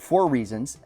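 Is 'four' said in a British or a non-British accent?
non-British. Four is said in the speaker's ordinary accent.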